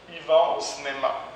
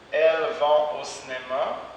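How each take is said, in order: First: The pronoun is reduced to a plain i. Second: The pronoun elles is fully pronounced.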